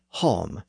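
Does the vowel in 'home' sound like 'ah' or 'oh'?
oh. The vowel is a rounded 'oh' sound. This is how the word was said in the south. "In the south, it would have been hom"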